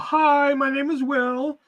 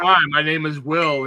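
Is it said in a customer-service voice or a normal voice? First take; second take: customer-service; normal. First: It is said in a put-on customer-service voice. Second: It is said in a plain, everyday voice.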